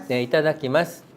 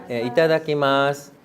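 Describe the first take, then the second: Both takes have the same delivery.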